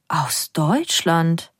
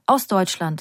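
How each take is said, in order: First: Slow, half-whispered disbelief, letdown on DEUTSCHLAND; disappointed. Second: Said in the usual way. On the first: A narrator's reading. Orange woman echoing the answer, disappointed. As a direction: draw out DEUTSCHLAND in a disappointed hush. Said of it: "Die Orangefrau klingt enttäuscht".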